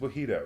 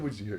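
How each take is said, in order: First: The middle consonant is an H sound. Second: The middle consonant is a J sound. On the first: The speaker calls it right. "It's like mojito" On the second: The speaker calls it wrong. "Why do you always say Wajito?"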